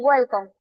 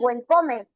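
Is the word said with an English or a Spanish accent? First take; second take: English; Spanish. First: It is said with an English-sounding accent. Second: It is said with a Spanish-sounding accent. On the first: The speaker has learned over time. The speaker calls it right. "Ya con el tiempo dicen welcome" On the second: The speaker is still a beginner translating in their head. The speaker calls it wrong. "Hay personitas que pronuncian welcome"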